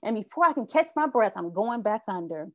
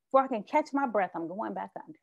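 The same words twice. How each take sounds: First: Said in the usual way. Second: Sighing, then fading to almost nothing; weary sigh. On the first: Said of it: "very tiring". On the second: Shown as a demonstration. Describing the exhausting struggle to catch a breath, a tired sighing fade. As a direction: let it sink away, worn out from fighting the water. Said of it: "it's very tiring".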